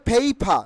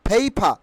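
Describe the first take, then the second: The two takes are said the same way.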